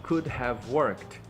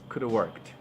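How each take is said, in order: First: 'Could' and 'have' are said as separate words. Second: 'Could have' is shortened all the way to 'coulda'. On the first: "eles ensinam você a falar justamente desse jeito" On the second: "você pode reduzir ainda mais, você pode falar simplesmente coulda"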